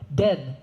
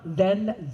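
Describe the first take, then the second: First: The word begins with a 'd' sound. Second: The word begins with a 'th' sound. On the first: This is how Gullah speakers say it. "you hear us drop the T H and add the D" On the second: This is the standard way of speaking. "When you enunciate, you do it so properly"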